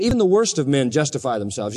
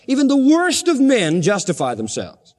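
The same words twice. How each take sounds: First: Said in the usual way. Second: "worst" lifted high and hit hard; emphatic restatement with "worst" punched; stress on worst. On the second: Shown as a demonstration. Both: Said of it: "You know that?".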